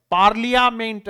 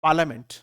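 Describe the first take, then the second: First: पार्लियामेंट spelled out as "paɾlijameɳʈ", every letter said; the wrong letter-by-letter पार्लियामेंट, "paɾlijameɳʈ"; wrong pronunciation. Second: पार्लियामेंट as "paləmẽɳʈ", r silent; correct pronunciation. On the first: Teacher shows the common wrong reading before correcting it. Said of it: "ऐसा कुछ नहीं होता है।". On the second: Teacher gives the correct form after the wrong one. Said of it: "सही". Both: Shown as a demonstration.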